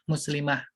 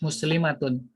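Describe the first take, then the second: First: The word ends in a soft h, no ending. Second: The word ends with the full -atun ending.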